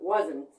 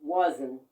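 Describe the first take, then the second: First: The word ends with an audible T sound. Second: The word ends with an audible T sound.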